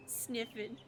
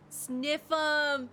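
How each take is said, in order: First: "Sniffin'" said softly, as a first try; wrong guess at the word. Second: "Sniff 'em" called out, louder with a lift; punchline realized. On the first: Working out the muffin joke aloud, "Sniffin'" tried softly. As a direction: tries "Sniffin'" with the final n. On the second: Streamer cracks the muffin joke, "Sniff 'em!" exclaimed. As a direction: blurt "Sniff 'em!" as the answer clicks. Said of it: "I was like, "Wait, it's right?". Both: Shown as a demonstration.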